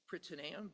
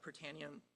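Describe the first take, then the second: First: It is pronounced the original Greek way. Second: It is pronounced the anglicized everyday way. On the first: "the correct pronunciation is" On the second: "but we say"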